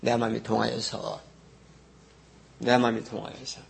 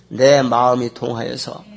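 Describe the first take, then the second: First: Quiet repeat. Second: Slow, louder leading read; reading the verse aloud. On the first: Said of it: "깨달은 상태가". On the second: Pastor leading the congregation's read-along, slow and emphatic. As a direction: lead the congregation in the line slowly. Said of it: "따라 읽습니다". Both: Shown as a demonstration.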